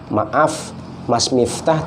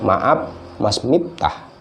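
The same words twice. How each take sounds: First: The f sounds are pronounced as f. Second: The f sounds are pronounced as p. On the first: "kita biasa" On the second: "orang Sunda susah ngomong F"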